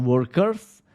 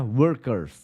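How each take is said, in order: First: The word ends with a hissing s sound. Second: The word ends with a buzzing z sound. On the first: The speaker calls it wrong. "Akhiran S padahal harusnya akhiran Z" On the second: The speaker calls it right. "harusnya workers"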